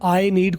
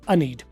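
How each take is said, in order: First: 'I' is said fully, like 'eye'. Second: 'I' is reduced to a short 'uh'. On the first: The speaker is stressing the point. "अगर जोर दे के बात करना तो फिर rule तोड़ देंगे" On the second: This is the ordinary everyday way. "आज के बाद अपने आप को आप अब बोलेंगे अ डू"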